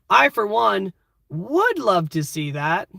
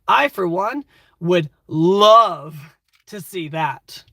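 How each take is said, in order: First: The word 'would' carries the main stress. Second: The word 'love' carries the main stress. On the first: A 'but' is about to follow. "Would makes it sound like a question" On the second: The speaker feels passionate about it. "You're clearly very passionate about whatever we're talking about"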